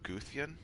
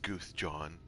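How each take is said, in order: First: The middle consonant is a Y sound. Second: The middle consonant is a J sound. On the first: The speaker calls it right. "I'm gonna assume that J is pronounced like a Y" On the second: The speaker calls it wrong. "I doubt it's"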